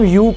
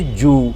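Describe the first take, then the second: First: The word begins with a y sound. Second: The word begins with a j sound.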